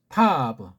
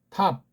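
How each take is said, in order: First: The final consonant is released as an extra syllable. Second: The final consonant is clipped, with no extra syllable. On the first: "서양 애들식으로 한번 하죠. ... 뒤에 꼬다리를 풀어서 발음하는 식" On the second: "초성, 중성, 종성, 예, 삼성 원리로"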